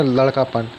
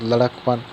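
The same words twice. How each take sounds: First: लड़कापन with a long aa after ड़, lad-kaa-pan; the wrong way, लड़कापन with a long aa; wrong form. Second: लड़कपन said as lad-ak-pan with no long aa after ड़; short clipped लड़कपन, no vowel after the ड़; the right way, लड़कपन; correct form. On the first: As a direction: stretch the aa in लड़कापन as the mistake. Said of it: "ऐसा नहीं हो जाएगा इसमें". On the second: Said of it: "ऐसा नहीं हो जाएगा इसमें लड़कापन". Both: Shown as a demonstration.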